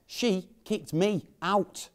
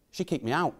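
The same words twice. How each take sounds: First: SHE, KICKED, ME, OUT slowly, each word set apart and higher; slow, higher, separate stress on every word of "she kicked me out"; incredulous word-by-word emphasis. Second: Said in the usual way. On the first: Acted. Repeats it in disbelief.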